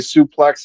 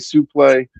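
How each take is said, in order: First: The word ends with a clear 'ks' sound. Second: The word ends in an 'ay' vowel, no 'ks'. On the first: This is the usual way to say it. "he wouldn't say suplex" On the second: This is how one particular announcer said it. "he would say supplay"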